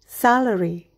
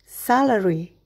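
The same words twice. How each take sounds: The two takes are said the same way.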